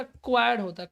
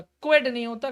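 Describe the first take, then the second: First: क्वाड said as kwad, the right form; correct pronunciation. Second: क्वेड said as kwed, marked wrong; wrong pronunciation. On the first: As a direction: settle firmly on क्वाड. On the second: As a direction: stress the wrong form क्वेड. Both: Shown as a demonstration.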